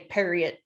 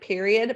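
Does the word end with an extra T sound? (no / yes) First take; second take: yes; no. First: The word ends with an added T sound. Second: The word ends plainly, with no added T. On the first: It's done and final, no argument. "but you say period. ... You put a T" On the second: The ordinary word. "It's like period"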